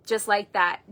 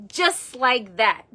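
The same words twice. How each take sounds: First: Said in the usual way. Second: Just like that drawn out very slowly; slow, deliberate just like that; slowed emphasis. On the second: Shown as a demonstration. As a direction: stretch just like that for weight.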